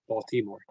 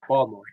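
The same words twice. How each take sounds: First: The word has standard, careful pronunciation. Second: The word has local Baltimore accent pronunciation. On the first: "When it's actually Baltimore" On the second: "I say Baltimore"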